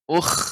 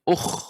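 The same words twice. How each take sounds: First: The vowel sounds light and thin. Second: The vowel sounds heavy and full. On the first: The speaker calls it wrong. "jadi tipis" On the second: The speaker calls it right. "tapi kembali ke tempat semulanya"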